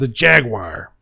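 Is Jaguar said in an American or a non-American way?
American. Jaguar is said in an American way. The speaker calls it right. "Today is the fourth of July. We're saying Jaguar today"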